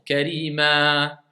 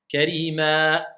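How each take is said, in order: First: The word ends with breath flowing out. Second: The word ends with an abrupt glottal stop. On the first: The speaker calls it right. "Il faut que je laisse passer le, le souffle et le son" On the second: The speaker calls it wrong. "J'ai mis la hamza ou pas? ... C'est faux"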